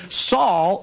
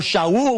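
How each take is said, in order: First: Said in the usual way. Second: "Shaul" said the Hebrew way, sha-OOL; Hebrew pronunciation. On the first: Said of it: "he had a Hebrew name". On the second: Shown as a demonstration. Preacher shows the Hebrew name of Saul, "Shaul" as sha-OOL. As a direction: say "Shaul" as two syllables, sha-OOL, slowly. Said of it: "we would pronounce it in Hebrew".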